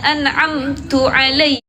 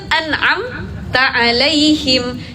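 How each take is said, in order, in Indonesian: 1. Kata pertama diakhiri vokal 'u'. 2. Kata pertama diakhiri vokal 'a'. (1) "Kita bacanya diganti domah atau kasrah" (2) "Itu kan an'amta alaihim"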